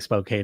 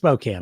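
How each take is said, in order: First: It is pronounced the way the spelling suggests. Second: It is pronounced differently from what the spelling suggests. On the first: The speaker calls it wrong. "It looks like Spokane to me" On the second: The speaker calls it right. "but it's Spokane. I know it"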